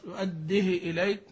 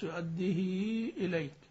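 First: The vowel after the h is cut short. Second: The vowel after the h is fully drawn out. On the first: "بالاختلاس أو بالقصر" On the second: "أن توصل كما قرأ حفص"

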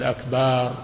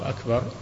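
First: The vowel after the b is drawn out long. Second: The vowel after the b is short. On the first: The word becomes a plural meaning drums. The speaker calls it wrong. "ولا يمد الباء فيقول أكبر" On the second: God is greater. The speaker calls it right. "يقول الله أكبر"

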